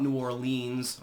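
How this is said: The name is said with a French-style pronunciation. The speaker calls it wrong. "more of the Francophone uh, uh, the pronunciation"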